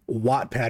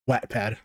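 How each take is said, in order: First: The first syllable is said like 'watt'. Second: The first syllable is not said like 'watt'. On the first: This is how the speaker reads the name. "I'm thinking Wattpad because I'm an electrician" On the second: This is the name others say is correct. "I've been told that it's called Wattpad"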